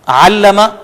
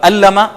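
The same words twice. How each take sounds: First: The word starts with a throaty ain sound. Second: The word starts with a plain vowel sound. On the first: He taught knowledge. The speaker calls it right. "अल्लमा इल्म दिया" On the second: He caused pain. The speaker calls it wrong. "अल्लमा नऊज़ुबिल्लाह दर्द दिया या तकलीफ दी"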